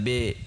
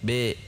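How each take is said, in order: No difference in how they are said.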